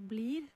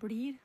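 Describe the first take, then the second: First: The l is a thin, clear l. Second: The l is a thick, flapped l. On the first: It is typical of the west side of Oslo. "han sier blir" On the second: It is typical of the east side of Oslo. "han sier ikke blir"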